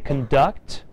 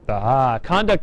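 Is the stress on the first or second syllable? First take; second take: second; first. First: The stress is on the second syllable. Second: The stress is on the first syllable. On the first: It is a verb meaning to lead together. "If I change the pronunciation and I say conduct" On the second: It is a noun meaning behavior. "Conduct is your behavior"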